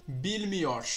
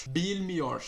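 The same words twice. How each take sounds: Both takes have the same delivery.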